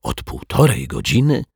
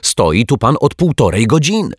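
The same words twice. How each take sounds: First: High, puzzled question with rising end; bewildered, disbelieving query; genuinely astonished. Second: Loud, high exasperated outburst; irritated, forceful accusation; annoyed. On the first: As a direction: echo it in honest amazement. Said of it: "ze szczerym zdziwieniem". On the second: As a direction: scold crossly at a raised pitch. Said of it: "zdenerwowała się pani sprzątaczka". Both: A narrator's reading.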